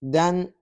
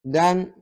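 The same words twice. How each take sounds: First: The syllable ends with an n sound. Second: The same.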